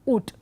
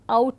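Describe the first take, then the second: First: The vowel is a short oo. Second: The vowel is the diphthong ow. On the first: This is the older pronunciation. "used to be pronounced with a short oo" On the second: This is the modern pronunciation. "now pronounced with the diphthong ow"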